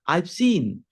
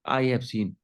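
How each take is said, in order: First: "I have" is shortened to one syllable. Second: Both words of "I have" are fully pronounced. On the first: "short form बोलेंगे तो आपका accent अच्छा होगा" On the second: "आई हैव भी सही है"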